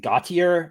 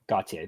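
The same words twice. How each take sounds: First: The name has an American pronunciation. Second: The name has a non-American pronunciation. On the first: The speaker calls it wrong. "that's how an American would say it" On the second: The speaker calls it right.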